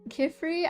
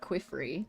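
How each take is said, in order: First: The name starts with a plain K sound. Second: The name starts with a KW sound. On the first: The speaker calls it right. "I just assume that's how you say his name" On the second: The speaker calls it wrong. "it's not Quifri. There's no U"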